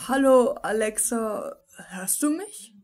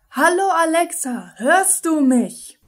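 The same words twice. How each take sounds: First: The question is said softly, without special emphasis. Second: The question is said loudly, with strong emphasis.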